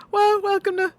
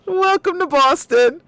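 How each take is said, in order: First: Put-on higher Boston-accent restart cracking up; Boston accent dissolving into a laugh; mock Boston accent breaking into laughter. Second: Put-on loud high Boston accent greeting; hammed-up Boston welcome; loud higher mock Boston accent. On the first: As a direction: try the Boston accent again and lose it. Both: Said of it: "New York accent".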